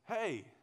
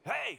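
First: The greeting sounds warm and friendly. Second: The greeting sounds sharp and hostile. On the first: It is a friendly greeting. "and somebody says, "Oh, how you doing?"" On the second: It signals anger at the listener. "same word, tone changes, and now you're like, "Hey, man, what did I do to you?""

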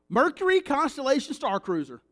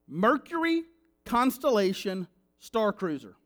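First: The name is said at a fast pace. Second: The name is said at a slower pace. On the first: "because I know I speak fast" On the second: "I'll say it one more time slower"

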